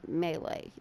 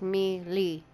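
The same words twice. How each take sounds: First: The word is said the French way. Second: The word is said as it is spelled. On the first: The speaker calls it wrong. "There's no A in it, okay? So, I don't think it's French" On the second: The speaker calls it right. "I say melee because I'm reading it, and that's what it says"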